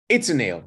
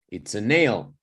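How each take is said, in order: First: The stress is not on the word nail. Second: The stress is on the word nail. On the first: The speaker calls it wrong. "You wouldn't say something like" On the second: The speaker calls it right. "You need to emphasize the noun"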